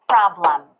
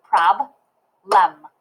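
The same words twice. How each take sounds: First: Said in the usual way. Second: "prob-lem" in two slow, separate beats; "prob-lem" broken syllable by syllable; clapped syllables. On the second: Shown as a demonstration. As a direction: pause between "prob" and "lem". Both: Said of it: "when I clap it".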